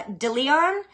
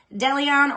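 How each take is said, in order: First: DeLeon said dih-lee-ON, rising like a question; pronunciation attempt. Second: DeLeon said deh-lee-ON, with "deh" up front; pronunciation attempt. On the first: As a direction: try DeLeon with a short "dih" first syllable, questioning. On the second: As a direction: try DeLeon with an open "deh" first syllable. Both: Shown as a demonstration. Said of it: "I tried to cover all three".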